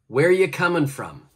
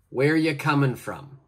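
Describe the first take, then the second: First: The word are is dropped in relaxed speech. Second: The same.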